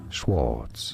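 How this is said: It is said with an English pronunciation. It is the family name as used in English. "The name in English is generally said as Schwartz"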